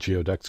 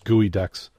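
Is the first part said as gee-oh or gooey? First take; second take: gee-oh; gooey. First: The word is said gee-oh-ducks, as it looks. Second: The word is said gooey-ducks. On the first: The speaker calls it wrong. "Why did I say it wrong? Because it looks like geoducks" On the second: The speaker calls it right. "I know how to pronounce it"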